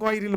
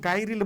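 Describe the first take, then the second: First: The first vowel sounds rounded, like o. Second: The first vowel sounds like an open a. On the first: The speaker calls it right. "আমরা গয়রিল বলবো" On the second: The speaker calls it wrong. "গাইরিল বলবো না"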